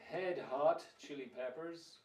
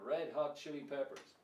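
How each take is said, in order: First: Both words start with an H sound. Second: Red starts with R, hot with H. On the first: The speaker calls it wrong. "Some people might say Head Hot Chili Peppers" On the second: The speaker calls it right. "red is red and hot is hot. So put it together"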